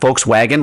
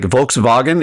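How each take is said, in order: First: The W is pronounced like a W. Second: The W is pronounced like a V. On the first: This is the American way of saying it. The speaker calls it wrong. "It's not Volkswagen like we say it" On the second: This is the German way of saying it. The speaker calls it right. "that's how you say it"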